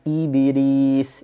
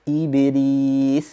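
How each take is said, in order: Both takes have the same delivery.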